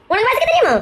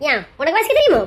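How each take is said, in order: First: Insistent challenge. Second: Low, pointed "தெரியுமோ" question; challenging retort. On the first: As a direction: press the question harder, pitched up. Repeats the challenge more insistently. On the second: Woman challenging man on his reading, low retort. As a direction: throw the question back, pitched low. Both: Acted.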